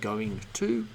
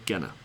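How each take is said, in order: First: Both words are said fully and clearly. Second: The words are squeezed into one short word. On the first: "One of them is the strong form" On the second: "the reduced form"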